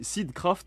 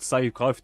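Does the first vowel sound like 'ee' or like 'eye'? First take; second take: ee; eye. First: The first vowel sounds like 'ee'. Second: The first vowel sounds like 'eye'. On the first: The speaker calls it right. "apparemment, ça se prononce Seed- Seedcraft" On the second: The speaker calls it wrong. "moi, j'étais là en mode Sidecraft"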